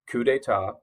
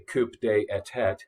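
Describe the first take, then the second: First: The term is pronounced in the standard way. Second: The term is deliberately pronounced in a mangled way. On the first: The speaker calls it right. "you pronounce it correctly" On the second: The speaker calls it wrong. "sometimes it's kind of fun to intentionally mispronounce words"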